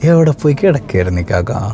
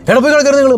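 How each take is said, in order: First: The question sounds warm and smiling. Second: The question sounds harsh and scolding. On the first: The speaker is glad the person is back. The speaker calls it right. "ചിരിച്ചുകൊണ്ട് പറഞ്ഞു" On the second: The speaker is annoyed at the wait. The speaker calls it wrong. "അങ്ങനെയല്ല"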